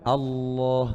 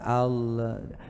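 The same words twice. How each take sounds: First: The L is pressed and held firmly. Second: The L is flicked off quickly. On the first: The speaker calls it right. "Harus ditekan dulu, ditekan gini" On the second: The speaker calls it wrong. "Bukan Allah"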